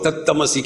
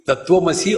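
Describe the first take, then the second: First: The cluster becomes a doubled t sound. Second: The tv consonant cluster is kept. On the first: How a Bengali speaker says it. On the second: The standard pronunciation.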